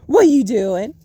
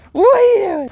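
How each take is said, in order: First: Said in the usual way. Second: Higher, louder what; raised, startled question; louder alarmed ask. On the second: Real, not acted. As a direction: call out sharply in alarm.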